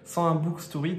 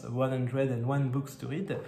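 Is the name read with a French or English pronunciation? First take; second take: French; English. First: The name is read with French pronunciation. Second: The name is read with English pronunciation. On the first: "en bon français" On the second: "je pense que sa chaîne se prononce"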